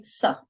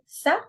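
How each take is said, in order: First: "sa" with heavy s and darker, backed vowel; emphatic sa. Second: Said in the usual way. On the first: Shown as a demonstration. Teacher corrects learners' light s, emphatic sa. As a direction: make "sa" the emphatic Arabic one. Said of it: "we're gonna say sa". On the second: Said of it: "we're not gonna say sa".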